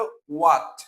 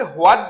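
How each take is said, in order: First: হোয়াট said as "wat", with no h; correct pronunciation. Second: হোয়াট said with an audible h, as "hwat"; common mispronunciation. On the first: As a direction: start হোয়াট cleanly on a w sound. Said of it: "উচ্চারণটা হবে হোয়াট". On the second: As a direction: say হোয়াট the wrong way, starting on "hw". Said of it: "যদি অনেকে হোয়াট বলে". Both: Shown as a demonstration.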